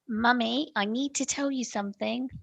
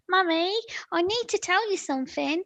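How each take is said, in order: First: It is said in the speaker's natural voice. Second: It is said in a put-on character voice.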